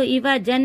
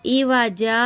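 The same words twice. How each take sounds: First: इवाजन ending in a short "an" with the n sounded; wrong nasal ending. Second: इवाजा ending on a long open "aa", no n; long alif ending. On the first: Teacher shows the reading to avoid, इवाजन with final "an". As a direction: close इवाजन on a short vowel plus n. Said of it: "इसको इवाजन नहीं पढ़ेंगे". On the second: Teacher shows the stopping form, इवाजा with a long final "aa". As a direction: end इवाजा on a stretched alif. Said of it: "एक अलिफ से बदल कर पढ़ेंगे". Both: Shown as a demonstration.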